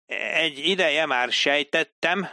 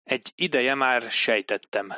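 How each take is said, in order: First: "Egy ideje már sejtettem" read back higher and slowly, word by word. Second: Said in the usual way. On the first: Acted. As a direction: read the line back carefully like a clerk. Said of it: "olvasta vissza Dilip a jelentést".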